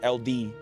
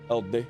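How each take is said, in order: First: It is said as two separate letter names. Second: It is said as one smooth word. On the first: The speaker calls it wrong. "not L D" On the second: The speaker calls it right. "I imagine it's Elde"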